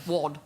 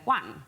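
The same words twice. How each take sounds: First: "wad" with a short flat northern vowel; "wad" as a Manchester one, clipped d ending; Mancunian "wad". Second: "one" said with a clean open wun, no Mancunian vowel; "one" as wun, rounded and crisp like the Queen; Queen's "one". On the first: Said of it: "as opposed to". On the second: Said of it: "of going "one" as opposed to "wad". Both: Shown as a demonstration.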